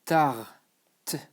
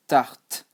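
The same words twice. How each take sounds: First: "Tarte" stretched, final t released separately after a gap; sounded out slowly. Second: "Tarte" as one syllable ending on t; silent final E. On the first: Teacher showing learners the E is silent, drawn-out pronunciation. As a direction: split "Tarte" into tar and a crisp t. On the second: Teacher telling learners to imagine no E, one-syllable pronunciation. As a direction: say "Tarte" whole, no vowel after the t. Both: Shown as a demonstration. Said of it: "you don't pronounce the E".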